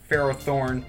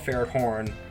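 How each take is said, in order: First: The name ends with a clear 'thorn' sound. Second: The name ends without a clear 'thorn' sound. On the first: This is how most people say it. "I know people pronounce it Ferrothorn" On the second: This is a personal way of saying it. "I call it Ferrothorn. I know there's Thorn in there, but that's just me"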